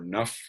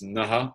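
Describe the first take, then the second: First: The final breath sounds like a soft f. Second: The final breath is followed by an echo vowel.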